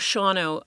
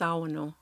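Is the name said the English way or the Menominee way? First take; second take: English; Menominee. First: The name is said with its English pronunciation. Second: The name is said with its Menominee pronunciation. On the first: "I don't know exactly how we came to that pronunciation in English" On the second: "but it's Sawano in, in Menominee"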